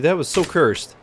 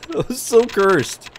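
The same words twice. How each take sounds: First: Said in the usual way. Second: Higher, louder and slow, stretching every word; drawn-out disgust. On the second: Acted. Streamer repeating his reaction to a cursed picture, drawn out high and loud. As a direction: savour the horror, drag it out.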